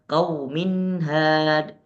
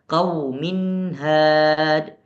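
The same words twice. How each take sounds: Both takes have the same delivery.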